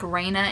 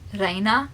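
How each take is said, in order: First: The R is not rolled, American style. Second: The R is rolled, with a different A. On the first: The speaker calls it wrong. "we say it like Reina in the U S" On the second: The speaker calls it right. "you have to like roll the R and like pronounce the A sound differently"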